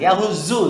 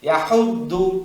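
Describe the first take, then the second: First: The middle consonant sounds like a z. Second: The middle consonant is a heavy d sound. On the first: The speaker calls it wrong. "ইয়াহুজু জু না হয়ে যায়" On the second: The speaker calls it right. "দুইটার মাঝামাঝি ইয়াহুদ্দু, আমি বামে লাগাচ্ছি"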